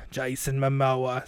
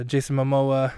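First: Very slow put-on character voice; slow deli man impersonation; Jason Momoa. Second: Said in the usual way. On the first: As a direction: drag the name out in character. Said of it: "It's me, Jason Momoa".

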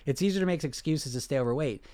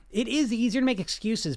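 First: Said in the usual way. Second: "is" punched high; stress on IS. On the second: Real, not acted. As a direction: agree firmly, lifting the word "is". Agrees emphatically with the comment read.

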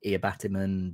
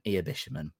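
First: "Iabatiman" with a "t" in place of "sh"; alternative name pronunciation. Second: "Iabishiman" with a "sh" in the middle; own name pronunciation. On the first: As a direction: say "Iabatiman", a hard "t" in the middle. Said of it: "I've heard people say Iabatiman". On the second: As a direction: say "Iabishiman", the third syllable starting "sh". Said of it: "that's how I pronounce it anyway". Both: Shown as a demonstration.

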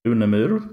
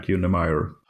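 First: Unemur said the Swedish way, ending in -ur; Swedish pronunciation. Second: Unemeyer said the English way, ending like "meyer"; English pronunciation. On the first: Guest showing host his surname, Swedish pronunciation. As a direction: say Unemur as Swedes pronounce it. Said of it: "In Swedish, I pronounce it". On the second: Guest giving his surname's English form, English pronunciation. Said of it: "but in English, it usually becomes". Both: Shown as a demonstration.

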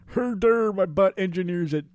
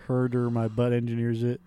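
First: High pitched silly voice; goofy voice. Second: Said in the usual way. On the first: Pretend. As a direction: squeak it like a dimwit.

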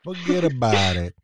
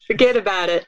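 First: A drawn-out New York wiseguy "Forget about it"; slow mafia tough guy impression; slow New York accent. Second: A light New York wiseguy "Forget about it"; hint of a mafia tough guy; New York mobster accent. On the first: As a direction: stretch "Forget about it" like a lazy mobster. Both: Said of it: "repeating mobster catchphrase".

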